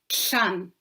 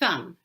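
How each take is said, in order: First: The s has air flowing out the sides. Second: The s is made with the tongue between teeth. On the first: "the air's flowing down the side of their mouth" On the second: "the tongue just comes straight out between the front teeth"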